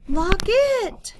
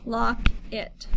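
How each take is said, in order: First: It is said excitedly, with energy. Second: It is said flatly, without excitement.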